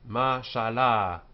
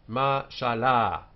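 Both takes have the same delivery.

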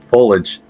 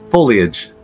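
First: The middle 'lee' syllable is left out. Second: The middle 'lee' syllable is clearly said. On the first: The speaker calls it wrong. "The incorrect way, but the way I pronounce it" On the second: The speaker calls it right. "It clearly has the Leah in there"

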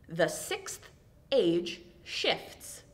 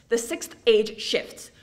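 First: The phrase is said at a slow pace. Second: The phrase is said at a fast pace. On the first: "Take all the time you need with it" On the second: "We're gonna speed up a little bit"

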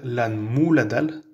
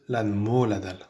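First: The vowel after M sounds like 'oo'. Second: The vowel after M sounds like 'oh'. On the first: The speaker calls it wrong. "Il ne faut pas dire" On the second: The speaker calls it right. "il faut dire ... M O O qu'on prononce mo"

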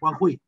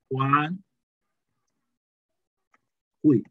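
First: The word flows without any break between syllables. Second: The word is broken by a pause between syllables.

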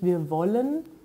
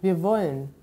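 First: The verb is said in full with both syllables. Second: The verb drops its final e, sounding like wolln. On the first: "man sagt nicht"

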